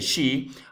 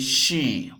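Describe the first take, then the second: First: The vowel is said short. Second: The vowel is said long. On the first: The speaker calls it wrong. "We don't have to say she" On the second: The speaker calls it right. "we have to say she, okay? Because the pronunciation is long"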